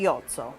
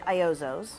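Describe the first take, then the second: First: The name is said with an Italian pronunciation. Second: The name is said with an American pronunciation. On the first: "in Italy we say Iozzo" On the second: "in the U S we say Iozos"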